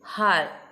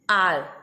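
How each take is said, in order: First: The word begins with an audible h sound. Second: The word begins directly with a vowel sound. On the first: The speaker calls it wrong. "we can't say har" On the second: The speaker calls it right. "We say r because h is silent"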